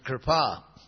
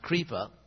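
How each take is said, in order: First: The r itself serves as the vowel. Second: The r is followed by an i vowel. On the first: The speaker calls it right. "the Sanskrit word is Kripa" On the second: The speaker calls it wrong. "which we often pronounce Kripa"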